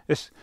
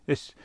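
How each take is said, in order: Both takes have the same delivery.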